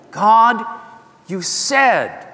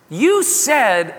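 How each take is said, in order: First: "God, you said" called out louder, leaning on "said"; stress on said. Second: Said in the usual way. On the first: Shown as a demonstration. Jacob pressing God about the promise, leaning hard on "said".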